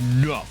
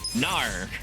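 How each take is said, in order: First: It is a plain, clipped 'no' sound. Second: It is a drawn-out, accented 'nar' sound. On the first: The speaker calls it right. "Say it like that" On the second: The speaker calls it wrong. "you're saying nar"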